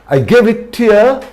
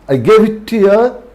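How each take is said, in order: The two takes are said the same way.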